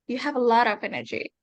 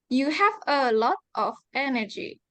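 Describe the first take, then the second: First: The words run together with no breaks. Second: The words are said separately, with small breaks. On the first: The speaker calls it right. "that's how you make it into more natural" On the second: The speaker calls it wrong. "Indonesia is like"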